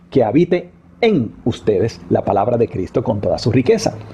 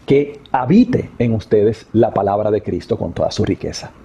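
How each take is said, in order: First: The stress is on "en". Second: The stress is on "habite".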